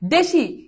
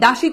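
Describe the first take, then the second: First: The first vowel sounds like 'e' in 'bed'. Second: The first vowel sounds like 'a' in 'cat'. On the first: The speaker calls it right. "এটা ঠিক আছে দেশি" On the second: The speaker calls it wrong. "জফলা আকার দিলে উচ্চারণ কি হবে? দাসী হবে।"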